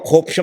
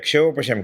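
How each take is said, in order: First: The word begins with a plain kh sound. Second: The word begins with a ksh cluster. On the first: The speaker calls it wrong. "ન કહેવાય" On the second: The speaker calls it right. "કહેવાય"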